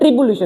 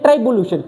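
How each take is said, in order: First: The first syllable sounds like 'tree'. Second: The first syllable sounds like 'try'. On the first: This is the actual pronunciation of the word. "क्या पढ़ते हैं, ट्रिबुलेशन" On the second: This reading is used as a memory trick. "लेकिन हम पढ़ेंगे ट्राइबुलेशन"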